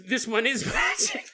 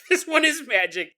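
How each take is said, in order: First: Laughing. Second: Louder, insistent repeat; emphatic shout. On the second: Insisting to Jason, shouting it's magic. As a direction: shout it to win the argument. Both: Real, not acted.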